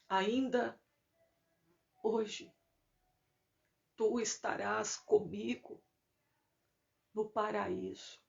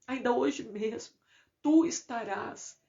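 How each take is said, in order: First: It is said softly, with laboured breathing. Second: It is said in a normal, full voice.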